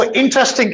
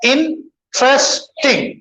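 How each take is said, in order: First: Said in the usual way. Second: interesting broken as "इन … trace … टिंग"; three separate beats for interesting; split into syllables. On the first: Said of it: "interesting कितने हैं". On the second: Shown as a demonstration. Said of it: "interesting कितने हैं, तीन यहाँ पे". (Interesting को तीन हिस्सों में रुक-रुककर)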